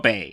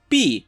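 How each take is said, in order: First: The name is said like the word bay. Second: The name is said like the word bee. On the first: The speaker calls it right. "I will continue to call her Bea, or Bay" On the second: The speaker calls it wrong. "how the English dub pronounce it"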